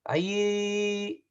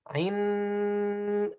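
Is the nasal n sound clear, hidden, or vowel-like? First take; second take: vowel-like; clear. First: The tongue stays far, giving an oral vowel-like sound. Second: The tongue touches at once, giving a clear n. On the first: "I'm bringing far. That's wrong" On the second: "I'm touching. That's wrong"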